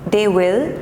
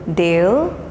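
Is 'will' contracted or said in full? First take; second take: full; contracted. First: The word will is said in full. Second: The word will is contracted onto they.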